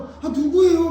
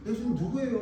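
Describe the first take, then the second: First: Impatient disciple, loud and high; Peter. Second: Lightly voiced disciple, higher-pitched question; John. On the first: Retold or imitated. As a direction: blurt the question out loudly, high-pitched. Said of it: "그리고 막 베드로는". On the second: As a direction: ask it higher without raising the volume. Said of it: "그러니까 사도 요한도".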